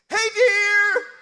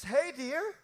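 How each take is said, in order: First: The greeting is said harshly and abruptly. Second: The greeting is said softly and gently.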